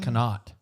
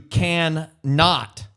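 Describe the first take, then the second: First: Can and not are run together as one word. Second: Can and not are said as separate words. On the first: "they try to smash can and not together" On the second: "I like to pronounce both ends individually, not slurred together"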